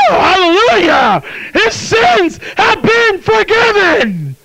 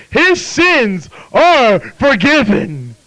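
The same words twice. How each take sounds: First: High, drawn-out shouted praise; exultant shout. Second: Drawn out and raised in pitch; slow, deliberate declaration. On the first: Real, not acted. Preacher rejoicing to the congregation over forgiven sins, exultant shout. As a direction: shout it out slowly at full pitch. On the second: Acted. Preacher voicing the verdict from the book, slow and deliberate. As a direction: proclaim it word by word, very slowly.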